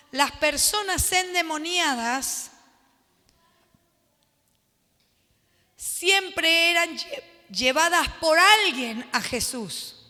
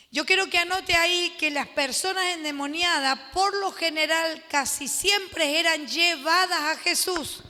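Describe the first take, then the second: First: Slow, word-by-word dictation pace. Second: Said in the usual way. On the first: Shown as a demonstration. Pastor dictating a note to the class, slowly. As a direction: spell it out slowly so they can write.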